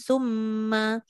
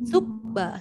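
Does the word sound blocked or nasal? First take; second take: nasal; blocked. First: The m sounds fully nasal, through the nose. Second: The nose is pinched, so the m sounds like b. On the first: The speaker calls it right. "Ataupun summa" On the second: The speaker calls it wrong. "Apa jadi kalau kita kepit hidung? ... Tak jadi. Sebab dia jadi sukba"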